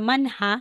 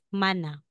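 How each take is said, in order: First: An h sound is heard before the a. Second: No h sound is heard before the a. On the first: The speaker calls it wrong. "Hindi po siya manha" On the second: The speaker calls it right. "kung hindi, mana"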